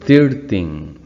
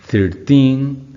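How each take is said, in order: First: The stress is on the first syllable. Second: The stress is on the last syllable. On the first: The speaker calls it wrong. "de la manera incorrecta" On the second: The speaker calls it right. "hacer un estrés en la última sílaba"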